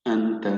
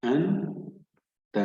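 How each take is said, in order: First: Said in the usual way. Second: "أنت" slowly split as أَنْ, pause, تَ; syllable by syllable. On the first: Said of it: "سنعيد قراءة الكلمة بشكل كامل". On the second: Shown as a demonstration. Teacher reads the word for learners, slow syllable split. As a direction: sound out "أنت" in two parts, first one rising. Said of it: "فاصل قصير بين المقاطع".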